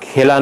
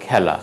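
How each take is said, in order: First: খেলা with closed "e"; closed first vowel. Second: খেলা with open "ae"; খেলা with "ae" as in "cat"; open first vowel. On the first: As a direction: say খেলা as "khela". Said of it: "নয়". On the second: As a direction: say খেলা as "khaela". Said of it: "হবে". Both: Shown as a demonstration.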